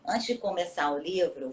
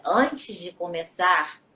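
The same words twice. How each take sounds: First: Said in the usual way. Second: Antes de começar drawn out slowly; slowed down. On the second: Real, not acted. (antes de começar dito devagar, pausado)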